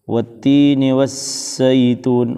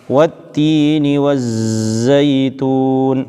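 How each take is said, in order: First: The z is hissed with breath like s. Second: The z is buzzed with no breath leaking. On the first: The speaker calls it wrong. "was was ini ada hamas dan bukan jahar" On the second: The speaker calls it right. "Tidak boleh keluar sama sekali nafasnya"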